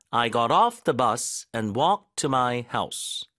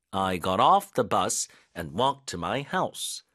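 First: "off" stressed, falling at the end, slow; first take, falling finish. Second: "off" stressed, rising at the end, slow; second take, rising finish. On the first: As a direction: hit "off" and let the sentence fall. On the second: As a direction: hit "off" and lift the end. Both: Shown as a demonstration. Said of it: "강세를 어디다 넣어야 되는지".

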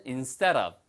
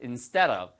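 First: "instead of" said word by word, each sound clear; "instead of" in careful, unlinked form; careful full pronunciation. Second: "instead of" run together as "insteda-v"; "instead of" said fast and connected; quick linked pronunciation. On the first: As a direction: spell out "instead of" slowly with a full d. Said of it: "발음은 instead of지만 빨리 하면". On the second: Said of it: "빨리 하면 instead of". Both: Shown as a demonstration.

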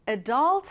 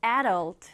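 First: Adult with stress on dult, e-DULT; stress on second syllable. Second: Adult with stress on a, AD-ult; stress on first syllable. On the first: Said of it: "두 가지입니다". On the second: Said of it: "앞에 강세를 두어서". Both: Shown as a demonstration.

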